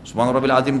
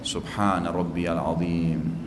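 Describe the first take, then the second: First: The phrase is said fast and mumbled together. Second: The phrase is said slowly and deliberately. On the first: The prayer is rushed without attention. The speaker calls it wrong. "kayak orang kumur-kumur, buru-buru" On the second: The prayer is savored. The speaker calls it right.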